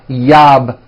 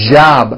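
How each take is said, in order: First: The word begins with a y sound. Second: The word begins with a strong j sound. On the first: The speaker calls it wrong. "It's never yob" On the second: The speaker calls it right. "with a strong J sound"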